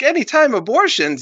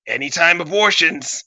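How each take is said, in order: First: Very high mock-shocked question; incredulous echo. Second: Raised, falling cocky announcement; breezy catchphrase. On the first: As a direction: repeat it back in disbelief. Crowd echoes him in disbelief. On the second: Acted. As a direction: toss it out like a slogan.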